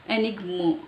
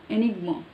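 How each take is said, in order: First: The vowel is pronounced as an 'uh' sound. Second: The vowel is pronounced as an 'uh' sound.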